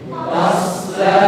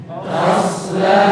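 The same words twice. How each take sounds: Both takes have the same delivery.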